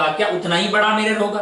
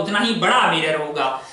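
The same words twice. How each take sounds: First: "क्या उतना ही बड़ा मिरर होगा?" asked with a questioning lift on बड़ा; teacher quizzing the class. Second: "उतना ही बड़ा मिरर होगा" as a settled statement, falling at the end, a bit lower; teacher confirming the answer. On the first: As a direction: pose it to the class as a quiz question, stress on बड़ा. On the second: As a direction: answer your own question with certainty. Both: Shown as a demonstration. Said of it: "मैंने कहा हाँ".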